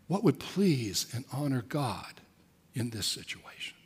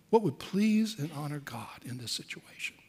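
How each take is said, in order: First: Quiet reflective question. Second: Hushed repeat. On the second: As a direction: let the question sink in quietly. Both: Shown as a demonstration. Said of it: "is simply to say".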